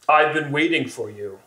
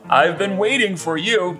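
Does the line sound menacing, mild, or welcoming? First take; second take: menacing; welcoming. First: The line sounds clearly menacing and threatening. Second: The line sounds warm and welcoming. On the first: The speaker calls it right. "Yeah, that better" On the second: The speaker calls it wrong. "It sounds like I want him here"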